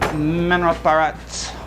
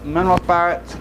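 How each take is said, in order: First: The phrase is said carefully with every sound clear. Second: The phrase is said casually with reduced sounds.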